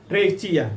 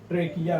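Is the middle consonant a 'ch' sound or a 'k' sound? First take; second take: ch; k. First: The middle consonant is a 'ch' sound. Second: The middle consonant is a 'k' sound. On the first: The speaker calls it wrong. "अब इसको ट्रेचिया भी कहते हैं लोग" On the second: The speaker calls it right. "लेकिन ट्रेचिया नहीं है, ट्रेकिया है"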